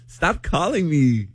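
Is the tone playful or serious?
playful. It sounds playful, not really meaning it.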